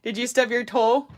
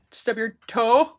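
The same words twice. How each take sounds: First: Said in the usual way. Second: Slow, drawn-out teasing stub your toe; mock sympathy. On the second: Real, not acted. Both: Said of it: "repeats the question".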